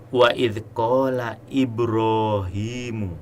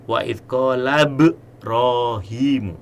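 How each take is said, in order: First: A glottal stop is heard before Ibrahimu. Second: Ibrahimu is linked without a glottal stop. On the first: The speaker calls it right. "Ibrahim itu hamzahnya adalah hamzah qata" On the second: The speaker calls it wrong. "Tidak boleh"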